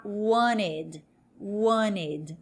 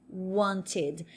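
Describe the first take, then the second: First: "wanted" said as WAN-ed, no T; silent T. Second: "wanted" with a clear T, WAN-tid; T fully pronounced. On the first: Teacher shows North American pronunciation, "wanted" without its T. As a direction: drop the T in "wanted". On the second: Teacher models the past of querer, crisp T in "wanted". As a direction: sound the T in "wanted". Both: Shown as a demonstration. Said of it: "esse T vai dar uma aliviada".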